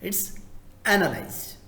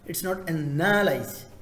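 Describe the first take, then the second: First: The stress is on the first syllable. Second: The stress is not on the first syllable. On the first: The speaker calls it right. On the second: The speaker calls it wrong.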